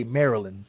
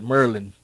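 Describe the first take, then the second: First: "Maryland" said the Texan way, with an open first vowel. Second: "Merlin" in two syllables, like the wizard; imitated local pronunciation. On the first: Shown as a demonstration. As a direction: say "Maryland" with a Texan "Mare" start. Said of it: "See, I say Maryland". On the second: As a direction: mimic locals squashing Maryland into "Merlin". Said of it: "they call it Merlin, like the wizard".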